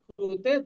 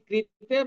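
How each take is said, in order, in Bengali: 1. এই দলটি 'kru' উচ্চারিত হয়, u স্বরধ্বনি সহ। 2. এই দলটি 'kri' উচ্চারিত হয়, i স্বরধ্বনি সহ। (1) "সংস্কৃতে অ্যাকচুয়ালি ক্রু উচ্চারণ" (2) "আমরা প্রাদেশিক হিসেবে ক্রি উচ্চারণ করি"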